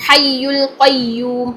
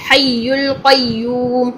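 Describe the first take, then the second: Both takes have the same delivery.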